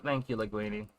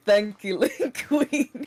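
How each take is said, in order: First: Flat, lifeless thank-you, a bit softer; dead voice. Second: Mock-flat echo of a friend's thank-you; mocking dead voice. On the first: Retold or imitated. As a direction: say it with zero enthusiasm, drained. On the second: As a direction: parrot it back as lifeless as possible, teasing.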